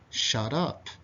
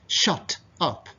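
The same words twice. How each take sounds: First: The t is soft, sounding like a d. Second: The t is a crisp, hard t sound. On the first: "these letters become soft" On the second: "it's very strict, it's very hard"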